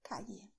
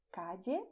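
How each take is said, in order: First: Calle with ll like English y. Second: Calle with ll like English j. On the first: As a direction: say calle as "ka-yeh". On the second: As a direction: say calle as "ka-jeh". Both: Shown as a demonstration. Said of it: "or even".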